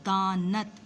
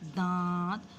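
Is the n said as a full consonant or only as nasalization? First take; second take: full consonant; nasalization. First: A full n consonant is said before the t. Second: The vowel is nasalized with no full n. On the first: The speaker calls it wrong. "दानत बोला जाता है लफ्ज़, नहीं बोला जाता" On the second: The speaker calls it right. "हमारी आवाज़ कहाँ चली गई, नाक में चली गई"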